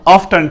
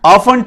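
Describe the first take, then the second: First: Often with sounded t, "OFF-tun"; American pronunciation. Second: Often with silent t, "OFF-un"; British pronunciation. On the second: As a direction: say often as "off-fun". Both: Shown as a demonstration. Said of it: "दोनों ही correct हैं".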